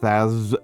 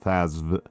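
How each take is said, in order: First: The name ends without a final V sound. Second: The name ends with an audible V sound. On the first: "just Thaz is okay" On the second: "I like to try to pronounce the V in there"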